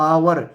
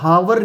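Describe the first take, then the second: First: The word begins with a vowel, h silent. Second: The word begins with an audible h sound. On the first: The speaker calls it right. "हम क्या बोलते हैं आवर" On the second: The speaker calls it wrong. "यहाँ पर हम हावर नहीं बोलते"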